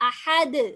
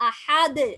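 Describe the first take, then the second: No difference in how they are said.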